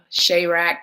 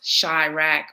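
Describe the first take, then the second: First: "Chirac" said as SHAY-rack; "Chirac" with first syllable rhyming with day; name said correctly. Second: "Chirac" said as SHY-rack; "Chirac" drawn out, first syllable rhyming with sky; butchered name. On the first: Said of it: "pronounced Chirac, butchered". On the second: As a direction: say "Chirac" with an EYE vowel, like shy. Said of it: "pronounced Chirac". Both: Shown as a demonstration.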